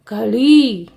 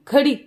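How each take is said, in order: First: The final vowel is long. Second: The final vowel is short. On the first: The speaker calls it right. "बड़ी की मात्रा का है ना" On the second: The speaker calls it wrong. "ऐसे नहीं बोलते"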